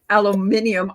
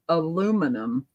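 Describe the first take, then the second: First: The word is said the British way. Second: The word is said the American way.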